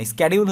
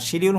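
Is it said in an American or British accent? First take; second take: American; British. First: It is said in an American accent. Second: It is said in a British accent.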